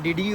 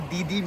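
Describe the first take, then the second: First: It is said as two separate 'dee' sounds. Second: It is said as one word, 'didi'. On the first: "डी डी is just more comfortable pronunciation में" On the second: "वो दीदी भी बोल सकते हैं उसे"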